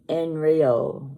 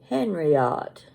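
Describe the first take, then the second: First: The H and final T are both silent. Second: The H and final T are both pronounced. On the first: The speaker calls it right. "You don't pronounce the H and you don't pronounce the T at the end" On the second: The speaker calls it wrong. "It looks like Henriot. That's in English"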